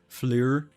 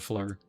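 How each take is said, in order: First: The name is said with a French pronunciation. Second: The name is said with a plain English pronunciation. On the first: This is the originally intended pronunciation. "the original pronunciation was supposed to be like the French way of saying it" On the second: This is how most people actually say it. "everyone just kind of treats the two as silent, so it's just F L U R"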